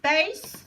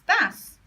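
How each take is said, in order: First: The vowel rhymes with 'ace'. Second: The vowel rhymes with 'ass'. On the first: "b ace" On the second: "or b ass"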